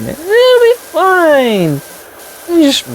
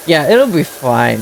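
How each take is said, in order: First: Very high, slow sing-song "It'll be fine"; sing-song reassurance. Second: Said in the usual way. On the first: Acted. Player mocking own chimney plan, very high slow sing-song. Repeats reassurance to self, sarcastic.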